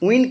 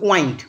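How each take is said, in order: First: The vowel sounds like 'ih'. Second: The vowel sounds like 'eye'. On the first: It means moving air. "উইন্ড কিন্তু বাতাস" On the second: It means to twist or turn. "ওয়াইন্ড হয়ে গেল পাক দেওয়া"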